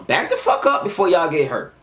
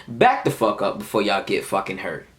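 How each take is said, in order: First: Higher-pitched, heated warning; forceful warning. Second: Controlled warning at an everyday pitch; telling them nicely. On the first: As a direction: act out warning them off insistently. Repeats the warning more forcefully. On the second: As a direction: act out a calm, measured warning. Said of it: "I'm telling them nicely". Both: Retold or imitated.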